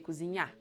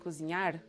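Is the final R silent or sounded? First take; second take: silent; sounded. First: The final R is silent. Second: The final R is clearly pronounced. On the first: The speaker calls it right. "the last syllable is stressed and the R is silent" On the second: The speaker calls it wrong. "You don't say"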